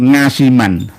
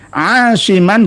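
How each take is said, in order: First: The name begins with an 'ng' sound. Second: The name begins with a throat consonant. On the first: This is how Javanese speakers commonly say it. The speaker calls it wrong. "lidahnya itu kurang fasih" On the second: This is the original Arabic form of the name. The speaker calls it right. "mengeluarkan makhraj aslinya ain"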